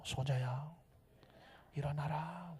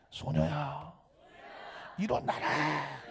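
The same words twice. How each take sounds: First: Very soft, hushed command; 속삭이듯 강조. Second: Drawn-out calling command; 외치듯 길게. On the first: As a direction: keep it low and near a whisper. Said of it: "제가 속삭일 때는 강조하려고 속삭이는 거예요". (아주 작게 속삭이듯) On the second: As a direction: call it out, stretching the last word slowly. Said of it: "소리 질러야 되잖아요". (길게 늘여 외치듯) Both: Shown as a demonstration.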